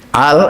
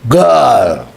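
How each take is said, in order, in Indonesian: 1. Kata itu diawali dengan bunyi hamzah. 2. Kata itu diawali dengan bunyi g. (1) "Misalnya yang Mesir itu kof diwaca a" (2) "Nek wong Saudi, kof itu jadi G"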